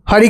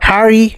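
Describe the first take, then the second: First: It is said in a plain Indian accent. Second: It is said in an English accent. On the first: "हमारे normal नाम" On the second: "अंग्रेज को देख लो"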